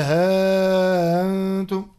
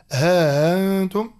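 First: ها أنتم with haa held longer, hamza softened; medium madd. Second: ها أنتم slowly, haa held briefly and hamza softened; short madd. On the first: Teacher showing Qalun's second option, ها أنتم with a longer held vowel. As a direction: sustain ها on a level note, then glide into أنتم. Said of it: "مع جواز القصر والتوسط". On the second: Teacher showing Qalun's short option, ها أنتم with haa held briefly. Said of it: "بالتسهيل مع جواز القصر والتوسط". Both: Shown as a demonstration.

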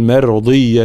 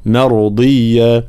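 First: "مرضية" with faulty heavy-light balance of m and r; wrong weight. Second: Slow chant, thin ma then full r in "مرضية"; light mim, heavy ra. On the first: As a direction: show "مرضية" mispronounced in m and r. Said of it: "فلا نقول مرضية". (مرضية بتفخيم وترقيق خاطئ) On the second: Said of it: "فإننا نفخمها". (مرضية بترقيق الميم وتفخيم الراء) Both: Shown as a demonstration.

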